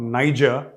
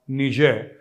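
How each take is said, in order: First: The name is said with an English pronunciation. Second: The name is said with a French pronunciation. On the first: The speaker calls it wrong. "not Niger" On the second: The speaker calls it right. "the French pronunciation of N I G E R is"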